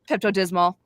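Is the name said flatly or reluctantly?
flatly. It is said flatly, as a plain statement. It is simply a fact. "instead of just saying"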